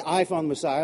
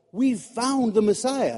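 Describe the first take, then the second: First: I stressed as the contrasting wrong word. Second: We've leaned on, slow and falling; stress on We've. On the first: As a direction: hit "I" as the wrong version. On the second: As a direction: land on "We've". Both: Shown as a demonstration. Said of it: "He doesn't say".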